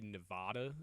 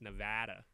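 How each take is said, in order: First: The middle vowel is a broad open 'ah'. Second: The middle vowel is a flat hard 'a'. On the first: It imitates a New York accent from a movie. The speaker calls it wrong. "you're saying it like you said Nevada" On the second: It is the Midwestern way to say it. The speaker calls it right. "we need our like hard A's for our Midwestern accents"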